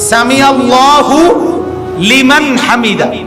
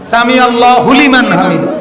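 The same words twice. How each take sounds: First: The 'hu' is kept apart from 'liman'. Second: The 'hu' is run into 'liman' as one chunk. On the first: The speaker calls it right. "হুলিমান না তো" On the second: The speaker calls it wrong. "আমরা তো এভাবে বলি না"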